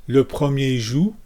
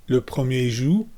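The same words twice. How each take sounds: No difference in how they are said.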